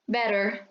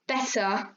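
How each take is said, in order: First: The middle T sounds like a soft R. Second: The middle T is a crisp, clear T. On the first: "Americans sometimes tend to butcher those sounds so that they sound more like R" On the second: "in British English, you get a clear T and D sound"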